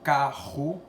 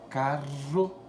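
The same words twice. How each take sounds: First: The r is a scraping sound at the back. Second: The r is a tongue-tip trill near the front. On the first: "vem lá pro fundo, pro céu da boca... o som vem arranhando lá no palato" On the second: "a língua ela dá uma tremidinha no céu da boca"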